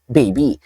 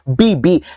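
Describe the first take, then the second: First: The word is said in a plain, ordinary way. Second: The word is said in a sweet, cutesy way. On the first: It refers to an ordinary person. "kung normal na tao lang" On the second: It refers to a loved one. "ang tinutukoy niyang baby si Barbie"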